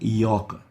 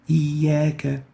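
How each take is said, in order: First: The word sounds heavy and emphatic. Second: The word sounds light and thin. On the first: The speaker calls it wrong. "We don't say" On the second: The speaker calls it right. "examples of attenuation of the alif"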